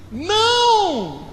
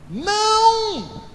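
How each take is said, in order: First: High exclaimed no. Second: High, sustained astonished Não; admiring surprised no. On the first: Acted. Jesus stopping the servants, high exclaimed no. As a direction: cry out no in surprise. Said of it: "tá até com exclamação". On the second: Shown as a demonstration. Jesus answering the servants with a high, long astonished Não. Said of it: "tem essa entonação aí ... De admiração, de surpresa".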